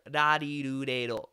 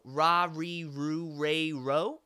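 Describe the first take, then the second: First: The R is a light tap between D and L. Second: The R is a hard, American-style R. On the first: "closer to a, a D, an R, and an L sound bled together" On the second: "So American English has a hard R"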